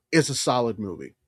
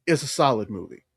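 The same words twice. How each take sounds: The two takes are said the same way.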